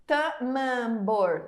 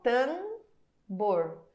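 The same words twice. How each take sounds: First: "tamambor" with the M said as its own syllable; wrong split M. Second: "tambor" said slowly with one nasal A and no M; correct nasal. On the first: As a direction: sound out "tamambor" with a full M. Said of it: "Eu não falo tamambor". ("tamambor" com o M separado) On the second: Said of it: "Eu falo tambor". ("tambor" com o A nasal, devagar) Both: Shown as a demonstration.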